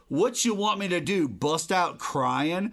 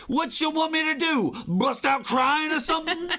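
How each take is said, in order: First: Mock mobster voice. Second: Higher, laughing mock gangster; laughing tough-guy mobster impression. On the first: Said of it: "sounds like an old mobster language". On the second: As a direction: ham up a Boardwalk Empire mobster. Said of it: "old mobster language".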